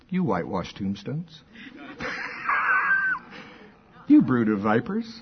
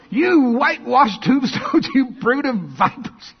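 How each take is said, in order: First: It is said in a mild, calm tone. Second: It is said in a fiery, angry tone. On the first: The rebuke is delivered without feeling. The speaker calls it wrong. "Is that the way you think it was?" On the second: The rebuke comes with righteous anger. The speaker calls it right. "I can just see the fire in his eyes"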